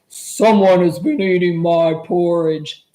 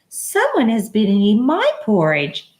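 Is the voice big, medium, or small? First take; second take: big; medium. First: It is said in a great big voice. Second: It is said in a middle-sized voice.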